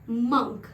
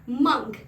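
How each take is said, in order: Both takes have the same delivery.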